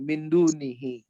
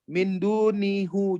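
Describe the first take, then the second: First: The last word ends with an 'i' vowel. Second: The last word ends with an 'u' vowel. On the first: The speaker calls it right. "Itu hanya untuk meringankan bacanya" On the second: The speaker calls it wrong. "jangan dunihu gitu"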